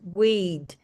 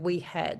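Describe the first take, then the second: First: It is run together into one syllable. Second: It is said as two separate syllables. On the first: "they got rid of the H and the A and they ran it together" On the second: "instead of we had"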